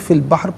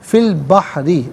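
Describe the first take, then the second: First: The last word ends on a consonant. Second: The last word ends with a short vowel. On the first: The reader stops here. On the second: The reading continues without stopping.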